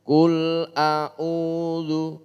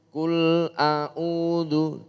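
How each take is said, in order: No difference in how they are said.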